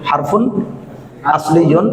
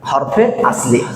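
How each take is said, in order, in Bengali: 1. এটি পূর্ণ আরবি কারচিহ্ন সহ বলা হয়। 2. এটি উর্দুর মতো একটু ছোট করে বলা হয়। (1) "যদি আরবি উচ্চারণ ভালোভাবে করি তাহলে হবে হারফুন আসলিয়ুন" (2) "আমাদের একটু উর্দু ঘেঁষা করে হরফে আসলি"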